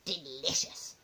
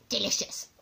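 First: Low, soft "Delicious"; hushed, gloating "Delicious"; savouring grandma. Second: "Delicious" savoured at near-usual pitch; audible savouring of "Delicious"; relishing grandma. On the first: A narrator's reading. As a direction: murmur "Delicious" to yourself with relish. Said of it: "she said again". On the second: Acted. Grandma relishes eating live slugs.

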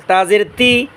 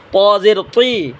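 First: "তা জের তি" with a thin, light T; thin TA sound. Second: "প জের তুই" with a thick, heavy emphatic T; thick TO sound. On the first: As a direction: say "তা জের তি" thinly, tongue not thickened. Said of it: "তা চিকন আওয়াজে পড়ব". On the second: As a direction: say "প জের তুই" slowly, full-mouthed T. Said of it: "ত মোটা আওয়াজে পড়ব". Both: Shown as a demonstration.

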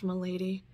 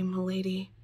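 First: Said in the usual way. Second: Whispered. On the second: A narrator's reading. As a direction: breathe the word milady as a whisper. Chat's tender reply.

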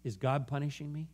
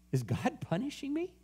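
First: Soft, hushed retold question; gentle, understated voicing of her doubt; subdued question. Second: Soft, high-pitched question; quiet question climbing at the end. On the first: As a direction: ask it quietly, as her. Woman's painful question retold. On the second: Retold or imitated. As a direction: lift it high and wondering. Question repeated by preacher.

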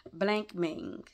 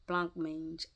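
First: Blank mang, said like English blank and mang; unsure pronunciation. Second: Blanc mange said the French way, plonk maynge; corrected pronunciation. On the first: Reader stumbling on a French dessert name, blank mang. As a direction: blank mang with a hard k, rhyming with bang. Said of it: "I don't know if I said that word right". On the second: Reader correcting herself, saying Blanc mange properly. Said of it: "Blank mang or blanc mange". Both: Shown as a demonstration.

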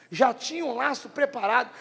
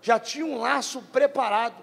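Both takes have the same delivery.

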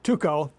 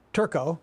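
First: Tuco said as too-ko, no r; corrected name. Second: Turco said with an r, as tur-co; mispronounced name. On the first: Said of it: "I keep doing that wrong". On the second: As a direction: say Turco with a wrong r sound. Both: Real, not acted.

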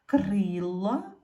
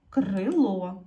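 First: "Крила" with a long stressed и; "Крила" with the weight on the first syllable. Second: "крило" loud, stressed on the final о; "крило" with the weight on the last syllable; stress on second syllable. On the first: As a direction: put the beat on кри in "Крила". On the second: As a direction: put the beat on ло in "крило". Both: Shown as a demonstration. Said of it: "постав наголос".

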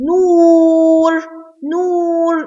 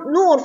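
First: نور with a high, long oo; long waw. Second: Said in the usual way. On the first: Shown as a demonstration. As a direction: stretch the vowel of نور very slowly. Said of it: "نور فيها مد واو". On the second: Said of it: "فيها مد واو".

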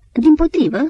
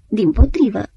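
First: High, loud eager protest; sharp high protest, almost a cry. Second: Insistent but calmer repetition; protesting. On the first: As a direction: cut in fast to object. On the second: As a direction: settle the objection back down. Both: Acted. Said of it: "protesta Antim".

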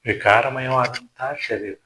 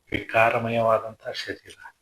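First: ವಿಕಾರಮಯವಾದಂಥ punched out louder; louder emphatic ವಿಕಾರಮಯವಾದಂಥ ಶರೀರ; emphatic repeat. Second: Slow, weighty delivery of ವಿಕಾರಮಯವಾದಂಥ; slow solemn ವಿಕಾರಮಯವಾದಂಥ ಶರೀರ; slow and deliberate. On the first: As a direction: hammer the word ವಿಕಾರಮಯವಾದಂಥ home. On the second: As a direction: draw out ವಿಕಾರಮಯವಾದಂಥ word by word. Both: Shown as a demonstration.

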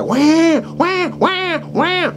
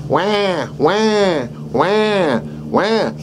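First: Put-on much higher, frantic baby wailing; mock baby wail. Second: Imitating a crying baby, higher; mock baby cry. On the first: Instructor shows a badly distressed baby crying. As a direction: wail like a really upset baby. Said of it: "they cry really bad". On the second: Instructor shows how a baby cries. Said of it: "They cry". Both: Shown as a demonstration.

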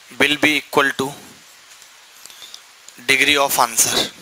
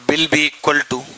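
First: Very slow, word by word; teacher dictating to students, drawn out; slow dictation. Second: Said in the usual way. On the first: Shown as a demonstration. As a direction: stretch each word so the class can write it. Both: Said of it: "repeats the phrase for dictation".

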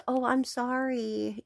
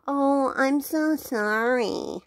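First: Soft, higher, insincere sorry; mock a customer pretending to be sorry; fake apology. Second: Slow, higher, stretched "so sorry"; hammed-up insincere apology, lingering on "so"; drawn-out fake apology. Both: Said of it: "after faking an apology".

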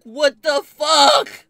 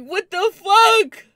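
First: Slow, higher, louder drawn-out cry; incredulous yell; outraged disbelief. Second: Much higher and louder, slow; screaming disbelief; exasperated shout. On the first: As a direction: stretch it in stunned outrage. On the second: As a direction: wail it at the top of your voice. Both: Retold or imitated. Outraged friends went back.

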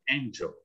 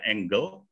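First: "angel" said with a J sound, "en-jel"; soft J in angel. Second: "angle" said with a hard G, "eng-gel". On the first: (ucapkan "angel" dengan bunyi J) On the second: (ucapkan "angle" dengan G keras) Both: Shown as a demonstration. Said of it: "Bacanya kan beda ya".

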